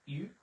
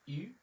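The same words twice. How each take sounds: No difference in how they are said.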